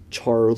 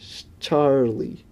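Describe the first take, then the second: First: Said in the usual way. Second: Slow, drawn-out Charlie in a British person's idea of an American accent, just lightly put on; a slight British-tinged fake-American "Charlie"; failed American accent. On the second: Shown as a demonstration. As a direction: stretch out "Charlie" the way a Brit faking American would. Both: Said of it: "I sound like a British person trying to do an American accent".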